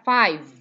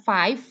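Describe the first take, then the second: First: The final consonant is voiced, with buzzing. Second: The final consonant is voiceless, without buzzing. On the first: The speaker calls it right. "kalau V itu ada ada ada dengungnya" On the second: The speaker calls it wrong. "bukan five"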